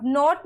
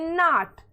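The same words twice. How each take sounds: First: NOTE with a long round O, "नोट". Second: नॉट with an open "aw-ah" vowel, drawn out; short open O. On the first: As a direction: say नोट with a full "oh" vowel. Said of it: "ओ बोल रहे हैं". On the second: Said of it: "औ बोल रहे हैं". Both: Shown as a demonstration.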